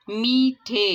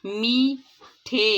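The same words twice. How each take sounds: First: Said in the usual way. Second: میٹھے stretched very slowly, each sound drawn out with a falling end; slow careful demo. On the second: Shown as a demonstration. Teacher drawing out میٹھے slowly for first-graders. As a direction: spell out میٹھے slowly for the class to copy. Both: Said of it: "درست تلفظ کے ساتھ پڑھیں گے".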